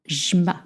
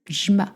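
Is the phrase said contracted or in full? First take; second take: contracted; contracted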